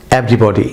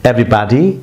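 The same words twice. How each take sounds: First: Everybody with a rounded British o, EV-RI-BO-DI; British pronunciation. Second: Everybody with an American ah, EV-RI-BAH-DI; American pronunciation. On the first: Teacher shows students the British everybody, rounded o. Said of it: "British ইংলিশে আপনি এটি everybody". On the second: Teacher gives students the American everybody, ah sound. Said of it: "American উচ্চারণে". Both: Shown as a demonstration.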